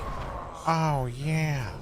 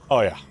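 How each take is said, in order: First: It is said in a Kool-Aid Man impression. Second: It is said in a Kronk impression. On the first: "the Coolidge voice is very" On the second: "for me to start doing Patrick Warburton, I go"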